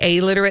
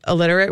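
First: The first vowel is a clear, emphasized 'ay'. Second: The first vowel is short and reduced. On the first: The word is not mistaken for illiterate. The speaker calls it right. "we say A-literate" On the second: It sounds like the person cannot read. The speaker calls it wrong. "which is how you would normally pronounce it"

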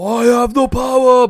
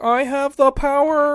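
First: The voice is deep and heroic. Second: The voice is high and squeaky. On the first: This is how the character is commonly imagined. "how everybody imagined He-Man sounded like" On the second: This is how the character actually sounded. "but really it's like"

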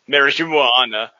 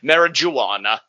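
First: The J is said softly, like an H sound. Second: The J is said as a hard J sound. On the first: This is how the word is pronounced correctly. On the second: This is how people said it long ago.

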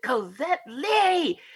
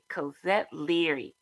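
First: The name is said at a medium, louder volume. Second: The name is said at a soft volume.

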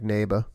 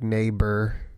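First: The ending of the word is let fall off. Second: The ending of the word is strongly pronounced. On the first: "they like just let things fall off" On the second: "we have a very strong sound"

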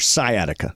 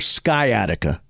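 First: The C sound is silent in the word. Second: The C sound is pronounced in the word. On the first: The speaker calls it right. "silent C" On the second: The speaker calls it wrong. "It is not your sciatica"

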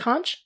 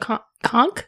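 First: The word ends in a 'ch' sound. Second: The word ends in a 'k' sound. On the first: The speaker calls it wrong. "Isn't it conch?" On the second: The speaker calls it right. "H is silent. So conch?"

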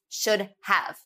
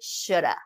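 First: The phrase is said in full, with two clear words. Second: The phrase is said reduced, blended into one word.

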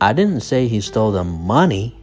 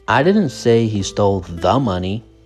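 First: The word "money" carries the main stress. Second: The word "the" carries the main stress. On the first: Something other than money was taken. "The stress is on money" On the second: Some other money was taken, not this specific money. "but rather some other money. The money"

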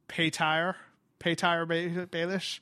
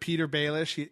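First: The first name sounds like 'Pay-teer'. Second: The first name sounds like plain 'Peter'. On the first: The speaker calls it wrong. "he mispronounces names" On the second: The speaker calls it right. "instead of Peter Baelish"

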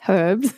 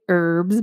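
First: It is said non-American style, with the h. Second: It is said American style, without the h.

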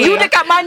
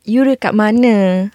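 First: It is asked in an accusing, attacking tone. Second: It is asked in a calm, caring tone.

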